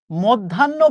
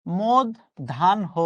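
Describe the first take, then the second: First: "মধ্যাহ্ন" said as mod-dhan-no, doubled n; common mispronunciation. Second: "মধ্যাহ্ন" slowly split as mod-dhan-ho; correct pronunciation, syllable by syllable. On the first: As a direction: say "মধ্যাহ্ন" with no h, ending in -nno. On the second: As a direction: spell out "মধ্যাহ্ন" slowly, sounding the final ho. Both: Shown as a demonstration. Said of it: "শব্দটা হচ্ছে".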